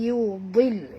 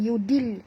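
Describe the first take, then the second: First: The d sound is heavy and thick. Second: The d sound is light and thin. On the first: The speaker calls it right. "tapi yudil ya, tebal ya" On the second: The speaker calls it wrong. "bukan yudil"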